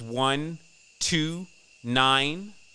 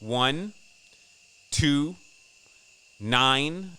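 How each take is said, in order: First: The numbers are said at normal speed. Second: The numbers are said slowly.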